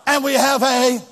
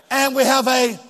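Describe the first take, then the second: No difference in how they are said.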